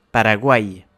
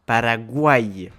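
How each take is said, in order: First: Paraguay stressed on the last syllable, guay; final stress. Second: Paraguay slow, uay gliding as one syllable; triphthong demo. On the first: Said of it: "Il est consonne dans les règles". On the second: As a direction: slowly glide through the uay in Paraguay. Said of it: "il entre dans les triphtongues". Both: Shown as a demonstration.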